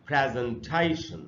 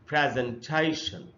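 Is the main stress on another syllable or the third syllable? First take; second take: third syllable; third syllable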